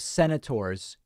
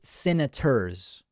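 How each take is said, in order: First: It is said with plain, standard vowels. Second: It is said with shifted Southern vowels. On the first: "instead of senators" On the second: "That's just a Southern accent"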